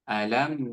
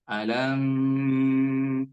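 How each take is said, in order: First: The m moves straight on without holding. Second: The final m is held long. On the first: The speaker calls it right. "seharusnya dia langsung saja lanjut kepada huruf nun" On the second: The speaker calls it wrong. "Biasanya imam membaca gini"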